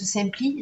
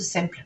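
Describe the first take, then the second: First: The name ends with an 'ee' vowel. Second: The name ends with a consonant sound. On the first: "soit le cœur à la fin c'était un Y" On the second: "soit c'était à la place du E"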